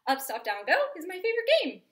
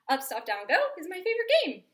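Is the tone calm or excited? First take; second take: excited; excited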